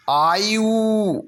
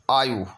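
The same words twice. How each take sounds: First: आयु stretched out high into yooo; overlong oo. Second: आयु dropped lower with short yu; short final u. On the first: Teacher exaggerating the error, आयु with long final oo. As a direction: draw out the end of आयु very slowly. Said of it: "आयु नहीं होगा". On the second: Teacher giving the correction, आयु with short final u. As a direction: end आयु on a brief u. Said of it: "छोटा ऊ की मात्रा". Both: Shown as a demonstration.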